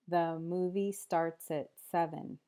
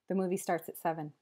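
First: The sentence is spoken at a slow pace. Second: The sentence is spoken at a fast pace. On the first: "then slower" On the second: "then fast"

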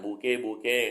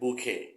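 First: The second syllable starts with a soft g-like sound. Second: The second syllable starts with an aspirated k sound. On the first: It sounds like the word for nasal mucus. The speaker calls it wrong. "คนไทยจะอ่าน" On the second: It means a bunch of flowers. The speaker calls it right. "ที่ถูกคือต้องเป็นบูเคหรือโบเค"

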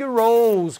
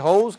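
First: It begins with a retroflex English R. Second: It begins with a breathy H-like sound. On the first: It means the flower. The speaker calls it right. "ela queria falar big rose, que é rosa" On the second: It means a garden hose. The speaker calls it wrong. "ela falou que rose, que é mangueira"

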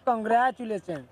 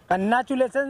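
First: The middle has a 'gr' consonant cluster. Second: The middle is a plain doubled 'n' sound. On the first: The speaker calls it right. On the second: The speaker calls it wrong. "कन्नाचुलेशन नहीं"

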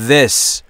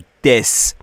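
First: The vowel is short and clipped. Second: The vowel is drawn out long. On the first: The speaker calls it right. "this this درسته" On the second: The speaker calls it wrong. "نمیگم take this یا this"

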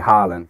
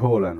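First: The name is given an anglicized English pronunciation. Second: The name keeps its original, non-English pronunciation. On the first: The speaker calls it wrong. "it's easier to say Haaland for the English commentators and viewers" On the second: The speaker calls it right. "It should be Haaland, right? That's actually the correct way of saying it"

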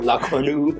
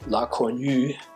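First: The name is said with an American accent. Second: The name is said with a German accent. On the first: The speaker calls it wrong. "aber Amis sagen La Cornue" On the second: The speaker calls it right. "Die Deutschen können es ja hier vernünftig aussprechen"

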